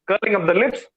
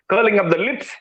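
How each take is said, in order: Both takes have the same delivery.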